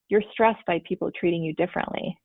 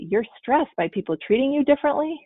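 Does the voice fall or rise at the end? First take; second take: fall; rise. First: The voice falls at the end. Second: The voice rises at the end. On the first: It is a statement reflecting what was heard. "I just said it as a statement" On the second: It is a question about what was heard. "If I put an inflection at the end, it would turn it into a question"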